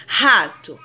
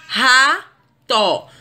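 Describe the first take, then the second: First: Said in the usual way. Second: "ra-to" in two drawn-out beats; teacher sounding out "ra-to" slowly; syllable by syllable. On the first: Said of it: "existirem duas sílabas na separação silábica". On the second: Shown as a demonstration. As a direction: break "ra-to" with a pause between ra and to. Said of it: "duas sílabas na separação silábica".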